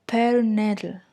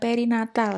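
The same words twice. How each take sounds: First: It is said with English pronunciation. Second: It is read with Indonesian pronunciation. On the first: The speaker calls it right. "ketika bahasa Inggrisnya adalah perinatal" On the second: The speaker calls it wrong. "di sini biasanya kita sebutnya perinatal"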